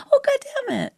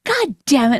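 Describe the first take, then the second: First: High, light mock curse; softened retelling. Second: Mock irritated curse, punched on the first word; angry husband imitation. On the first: Wife mocks how husband changes his story, high and softened. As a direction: mimic a cleaned-up, harmless version of the curse. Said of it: "You always change it". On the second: Wife mimics husband retelling what he did, mock angry. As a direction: imitate him cursing in irritation. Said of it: "you'll be like this".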